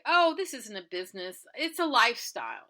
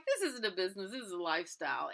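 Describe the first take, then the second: First: Loud, proud comeback; defiant retort. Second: Said in the usual way. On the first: Retold or imitated. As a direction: throw it back at him with pride. Retold proud retort to owner.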